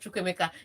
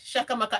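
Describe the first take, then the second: First: The name begins with 'Chu' with distinct vowels. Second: The name begins with 'Sha' and flattens vowels. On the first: This is the proper form of the name. The speaker calls it right. "instead of Chukwemeka" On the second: This is how the commentators say it. The speaker calls it wrong. "when they call his name, you think they are saying yes, Shakamaka"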